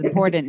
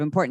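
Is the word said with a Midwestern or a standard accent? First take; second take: Midwestern; standard. First: It is said with a Midwestern accent. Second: It is said with a standard accent. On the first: It mimics how a Midwesterner says it. "She says important" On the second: It is the usual way of saying it. "instead of important"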